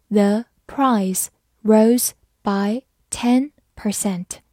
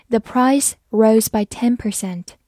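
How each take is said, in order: First: Slow, careful model reading. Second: Said in the usual way. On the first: Shown as a demonstration. Teacher slowly reading the example sentence. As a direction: read it slowly for learners. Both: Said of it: "好，慢慢来读".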